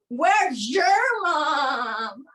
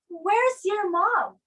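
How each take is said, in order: First: The z and y merge into zh. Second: The z and y sound separately. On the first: The speaker calls it right. "You say" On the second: The speaker calls it wrong. "You don't say"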